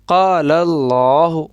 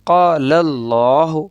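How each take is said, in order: First: The L in Allah sounds full and heavy. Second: The L in Allah sounds full and heavy.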